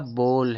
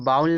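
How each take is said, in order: First: The vowel is a plain, steady 'o' sound. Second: The vowel glides like 'ow' in 'cow'. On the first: The speaker calls it right. "यह बोल है दोस्तों" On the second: The speaker calls it wrong. "जबकि यह बाउल नहीं है"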